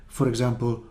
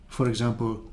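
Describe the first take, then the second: Both takes have the same delivery.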